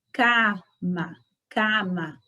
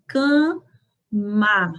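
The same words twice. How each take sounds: First: "cama" with both a's open, no nasal; Spanish cama. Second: "cama" with a nasal first a and an open second a; Portuguese cama. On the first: Teacher contrasting Spanish cama with Portuguese. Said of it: "vejam só a diferença da pronúncia". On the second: Teacher showing the Portuguese way to say cama. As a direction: show the Brazilian "cama". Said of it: "nós falamos assim". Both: Shown as a demonstration.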